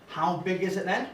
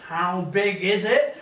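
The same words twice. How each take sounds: First: Said in the usual way. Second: "How big is it?" stretched out slowly with a rising end; insistent drawn-out repeat. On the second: Retold or imitated. Heckler asking the auntie, "How big is it?" slow and insistent. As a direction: press the question, dragging out "How big is it".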